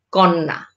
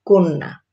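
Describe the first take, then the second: First: কন্যা with an open ɔ first vowel; কন্যা read as spelled, kɔnna; read as written. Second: কন্যা with an o first vowel, konna; কন্যা said the spoken way; spoken pronunciation. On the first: (কন্যা লিখিত রূপে) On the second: (কন্যা ও-কারের মতো উচ্চারণে) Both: Shown as a demonstration. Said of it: "জফলা যুক্ত হবে তখন".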